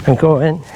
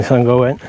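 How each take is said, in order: First: Higher, brighter rising repeat; cheerful confirmation, rising at the end; upbeat repeat. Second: Said in the usual way. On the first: Real, not acted. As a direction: lift it up as you set off. Repeats while setting off across.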